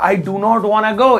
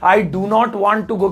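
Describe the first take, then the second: First: Want to is blended into one word, wanna. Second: Want to is said fully as two words.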